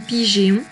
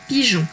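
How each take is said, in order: First: The E is sounded as an ay vowel. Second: The E is silent, going straight to on. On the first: The speaker calls it wrong. "ni pigéon" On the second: The speaker calls it right. "mais bien directement pigeon"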